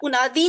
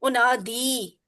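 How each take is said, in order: First: The final vowel is short. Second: The final vowel is drawn out long. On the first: The speaker calls it wrong. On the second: The speaker calls it right.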